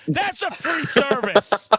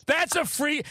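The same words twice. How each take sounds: First: Slow, louder sung line; sung, sing-song. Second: Said in the usual way. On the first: Pretend. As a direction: croon it slowly like a jingle. Sung joke announcement.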